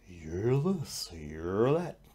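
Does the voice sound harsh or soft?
soft. The voice sounds soft and gentle. The inner voice no longer triggers bad feelings. The speaker calls it right. "Change the volume, change the tone"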